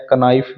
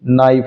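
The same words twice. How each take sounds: First: कनाइफ said with the k sounded before n; deliberate mispronunciation कनाइफ; wrong k sounded. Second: नाइफ said with the k silent. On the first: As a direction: say कनाइफ with an extra k at the start. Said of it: "कनाइफ नहीं होता". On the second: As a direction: say नाइफ starting straight on n. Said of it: "नाइफ होता है". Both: Shown as a demonstration.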